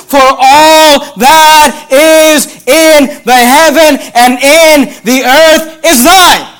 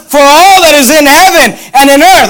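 First: Very slow, "all" and "in" held long and weighted; stress on all and in. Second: Raised, loud recitation pressing on "in"; louder, higher verse with a firm "in"; stress on in. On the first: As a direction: proclaim it word by word, leaning on "all" and "in". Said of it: "You ought to underline that word". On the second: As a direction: press on "in" and keep the verse moving. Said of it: "underline that word "in". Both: Shown as a demonstration.

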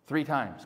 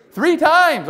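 First: Low, soft, deadpan reply; supply the answer quietly and drily; understated, dropped in low; muted answer. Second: High, loud, ringing reply; loud burst from the pulpit; emphatic answer. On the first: Muted answer after congregation misses it. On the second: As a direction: call the answer out forcefully. Answers his repeated question emphatically. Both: Real, not acted.

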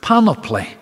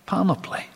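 First: Panoply said high and firm; emphasized word. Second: Panoply repeated, dropped much softer. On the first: Preacher presenting the Greek word, panoply said high and firm. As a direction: land firmly on panoply. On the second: Preacher repeating the Greek word, panoply echoed softly. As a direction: let panoply fall away softly. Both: Shown as a demonstration. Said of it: "it is that word".

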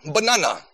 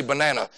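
First: Imitated Jamaican "Banana"; Jamaican accent. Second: Said in the usual way. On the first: Coach saying a player's nickname, imitated Jamaican accent. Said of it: "in a Jamaican accent". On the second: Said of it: "just so our coach would say banana".

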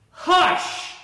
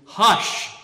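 First: Sharp, high, hissed loud hush; loud scolding hush. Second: Calm the wind with authority; a firm commanding hush. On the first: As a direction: silence a barking dog. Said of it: "Maybe not that loud". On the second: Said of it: "I think I can feel that tone more". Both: Shown as a demonstration.

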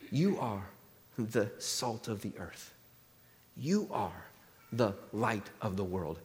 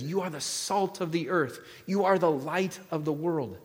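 First: Low, hushed and slow, with weighty pauses; solemn pronouncement. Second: Said in the usual way. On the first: Acted. Jesus addresses his followers on the hillside, hushed and solemn. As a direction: lower and soften the voice, setting each phrase apart.

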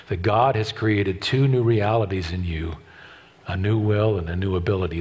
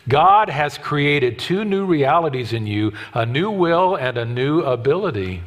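First: Said in the usual way. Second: "God" lifted and slowed, each word set apart; slow emphatic restatement. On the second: Shown as a demonstration. Preacher repeating the key line for the church, slower and firmer. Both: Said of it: "Here's how I put it into words".

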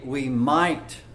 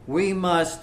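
First: "might" given a light, doubtful weight; stress on might. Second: "must" leaned on firmly, no doubt in it; stress on must. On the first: Preacher showing the wrong word "might", lightly stressed. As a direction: set "might" against "must", only a maybe. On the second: Preacher setting "must" against "might", stress on "must". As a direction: land on "must" as the certain word. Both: Shown as a demonstration. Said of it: "He didn't say".

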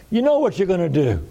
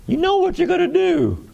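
First: Said in the usual way. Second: Much higher, eager rhetorical push; excited pitch jump. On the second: Real, not acted. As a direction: lift it high, you know it.

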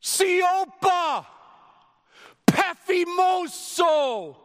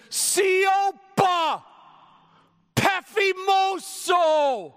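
First: High, loud, slow rebuke; Jesus rebuking the wind with a slow shout; commanding shout. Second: High, loud, drawn-out command; Jesus shouting the storm down, slow and loud. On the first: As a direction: order the wind to be silent. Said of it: "he speaks with all seriousness". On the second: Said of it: "you had to scream it like that". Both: Retold or imitated.

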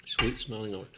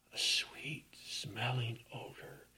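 First: Said in the usual way. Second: "sweet-smelling odor" in a soft breathy hush; whispered. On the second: Acted. Hushed awe over sweet odor.

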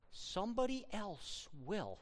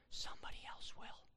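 First: Said in the usual way. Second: Whispered warning. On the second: Acted. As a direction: lean in and whisper it.

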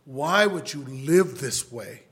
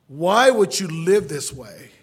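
First: Slow, loud appeal; pleading. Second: Very loud, slow cry of appeal; impassioned pleading. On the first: Preacher to his brother, slow insistent pleading. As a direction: plead firmly, stretching the words. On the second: Preacher begging his brother over and over, loud desperate pleading. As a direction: belt out the plea, drawn out. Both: Retold or imitated. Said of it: "I've pleaded with my whole family".

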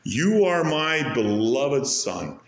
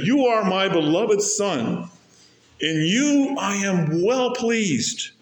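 First: Tender quote. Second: Voice of the Father. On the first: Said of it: "He speaks directly to his Son". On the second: The Father speaking to his Son, slow and raised. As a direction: proclaim it slowly from on high. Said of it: "And he says to him". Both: Acted.

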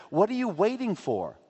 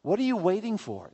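First: High-pitched, with the weight on "you"; stress on you. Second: High-pitched, with the weight on "are"; stress on are. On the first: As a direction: lean on "you", pressing the listener. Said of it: "How many miracles does he need". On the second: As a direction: lean on "are" as if demanding it. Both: Shown as a demonstration.

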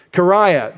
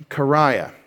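First: Kariah said high and loud, KUH-rye-uh, falling. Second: Said in the usual way. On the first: Shown as a demonstration. Preacher presenting the Greek word Kariah, loud and high. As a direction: announce Kariah with force. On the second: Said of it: "what is a kariah".

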